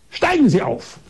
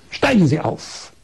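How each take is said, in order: First: Higher, bossy order from the doctor; imperious command. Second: Said in the usual way. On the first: Retold or imitated. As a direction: snap the order down like a haughty doctor. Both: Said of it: "Da sagt sie ganz herrisch".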